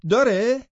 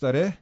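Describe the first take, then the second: First: Mocking rise. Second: Said in the usual way. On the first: Mocking question, sharp rise.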